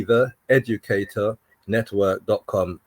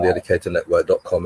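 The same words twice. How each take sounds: First: Slow, measured web address. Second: Rattled-off web address; too quick. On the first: Shown as a demonstration. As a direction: space the address out for someone writing it. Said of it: "Slow down". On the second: Real, not acted. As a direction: run the address together quickly, in passing. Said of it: "you said that too quickly".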